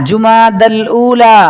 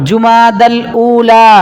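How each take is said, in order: No difference in how they are said.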